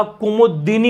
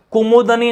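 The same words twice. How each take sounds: First: Slow कुमुदिनी with a clear "di"; correct form कुमुदिनी. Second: कुमुदनी with no "i" after d; wrong form कुमुदनी. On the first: Teacher correcting students, slow कुमुदिनी with "di". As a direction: draw out "ku-mu-di-ni" in कुमुदिनी. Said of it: "कुमुदिनी होता है". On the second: Teacher rejecting a form, कुमुदनी without "di". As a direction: go from "kumud" to "ni" in कुमुदनी. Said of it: "कुमुदनी नहीं होता". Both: Shown as a demonstration.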